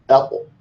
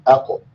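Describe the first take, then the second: The two takes are said the same way.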